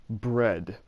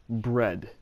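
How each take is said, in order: Both takes have the same delivery.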